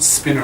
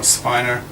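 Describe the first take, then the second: First: The first vowel rhymes with 'winner'. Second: The first vowel does not rhyme with 'winner'.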